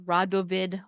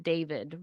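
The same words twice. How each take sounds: First: "Radovid." said as RAH-do-vid with three syllables; corrected name. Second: "David." said as DAY-vid, dropping the first syllable; mispronounced name. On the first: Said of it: "I'm not gonna pronounce his name right". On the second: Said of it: "Okay, I said David". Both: Shown as a demonstration.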